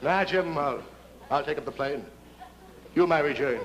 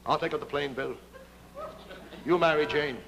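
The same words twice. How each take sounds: First: Mock heroic pilot. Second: A hint of a noble pilot, lower; lightly voiced hero, earnest and low; heroic pilot voice. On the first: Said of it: "Bill's too smart". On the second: Smiling Jim to Bill, lightly voiced noble hero. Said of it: "Smiling Jim speaks first".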